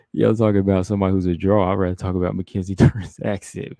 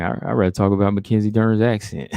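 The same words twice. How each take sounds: First: Laughing. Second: Said in the usual way. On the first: Real, not acted. Laughs through her own joke.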